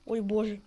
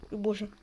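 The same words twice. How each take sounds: The two takes are said the same way.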